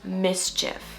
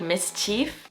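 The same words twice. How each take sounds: First: The last syllable ends with an 'if' sound. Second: The last syllable ends with an 'eef' sound. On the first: The speaker calls it right. "it's actually pronounced mischief" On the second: The speaker calls it wrong. "Non-natives would probably say something like mischief"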